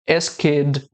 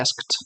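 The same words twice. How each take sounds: First: The -ed ending is forced as an extra syllable. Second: The -ed ending blends in without an extra syllable. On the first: The speaker calls it wrong. "forçar dizendo" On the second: The speaker calls it right. "o correto é asked"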